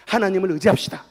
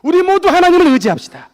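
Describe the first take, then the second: First: Said in the usual way. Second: Very loud, high rallying cry; rally everyone at full preaching force; shouted exhortation. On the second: Real, not acted. Preacher urges all to trust God, shouted exhortation.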